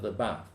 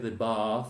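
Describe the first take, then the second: First: It is said in a northern English accent. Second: It is said in a received pronunciation accent. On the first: "with the bath is from the northern England" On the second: "this will you will say the bath"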